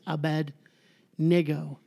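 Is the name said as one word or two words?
two words. The name is split into two words. The speaker calls it right. "It's two words. It's Abednego. Two different words"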